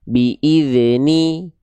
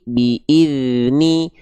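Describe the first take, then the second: First: The dh sound bounces with a short release. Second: The dh sound flows smoothly without release. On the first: The speaker calls it wrong. "Jangan sampai dibaca" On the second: The speaker calls it right. "suaranya bukan dipantulkan, tapi suaranya dialirkan"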